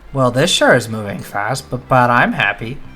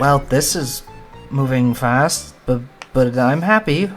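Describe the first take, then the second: First: It sounds plain and confident, not embarrassed. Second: It sounds shy and embarrassed.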